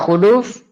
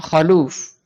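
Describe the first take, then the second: First: The first vowel is an 'u' sound. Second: The first vowel is an 'a' sound. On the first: "dengan didhamma kha-nya" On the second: "atau di fathah"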